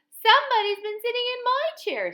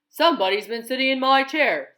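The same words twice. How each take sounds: First: It is said in a wee little voice. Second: It is said in a great big voice.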